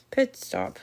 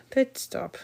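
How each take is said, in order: First: Talking around pins held in mouth. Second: Words pushed past pins held in mouth. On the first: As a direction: say it with pins between your lips. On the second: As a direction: mumble around a mouthful of pins. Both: Real, not acted. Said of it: "I have a pin in my mouth".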